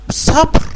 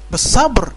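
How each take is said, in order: First: بالصبر punched much higher and louder; emphatic repeat. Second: Said in the usual way. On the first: Shown as a demonstration. Preacher to blind listeners, stressing patience: بالصبر shouted high. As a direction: hit بالصبر high and hard to drive it home. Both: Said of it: "شفت إزاي؟".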